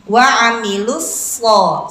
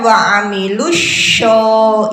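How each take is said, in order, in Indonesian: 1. Konsonan terakhirnya adalah bunyi 's'. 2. Konsonan terakhirnya adalah bunyi 'sh'.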